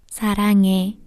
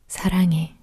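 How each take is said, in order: First: The voice sounds bright and bubbly. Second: The voice sounds calm and subdued.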